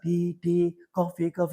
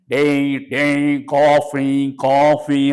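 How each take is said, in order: First: It is said plainly at normal pitch. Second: It is called out loudly at high pitch.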